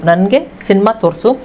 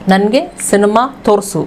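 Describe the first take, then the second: No difference in how they are said.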